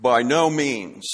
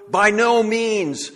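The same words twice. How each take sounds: First: "By no means" low and slow, weight on "no"; deep, measured "By NO means"; grave low answer. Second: "by no means" raised and slow, leaning hard on "no"; high, slow, horrified "by NO means"; emphatic refusal. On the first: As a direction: settle it with a heavy, final "no". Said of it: "This is his answer". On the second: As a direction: recoil from the idea, stressing "no". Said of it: "It's very strong, emphatic". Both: Shown as a demonstration.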